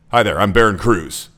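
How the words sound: The voice sounds flat and cold. "that's disengaging. That's not friendly"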